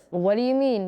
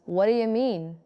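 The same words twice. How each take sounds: First: "What do you mean" with do and you sounded; careful "What do you mean"; full form. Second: "What do you mean" blended as whaddaya mean; casual connected "What do you mean"; reduced form. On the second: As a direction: run "what do you" together. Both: Shown as a demonstration.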